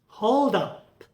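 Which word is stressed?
up. The stress falls on the second word. It is used as a verb.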